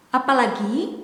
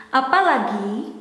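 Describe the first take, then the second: No difference in how they are said.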